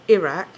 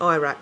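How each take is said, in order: First: It is said the British way. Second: It is said the American way. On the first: The speaker calls it right. "we say Iraq" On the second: The speaker calls it wrong. "not fucking Iraq"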